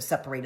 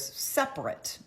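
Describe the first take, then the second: First: "separate" ending in a full "rate"; verb pronunciation. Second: "separate" ending in a reduced "rit"; adjective pronunciation. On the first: Explaining the marital word, "separate" said with a long final "rate". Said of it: "we think of separate as separation". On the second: Contrasting the other meaning, "separate" said with a short weak ending. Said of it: "But also there's separate". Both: Shown as a demonstration.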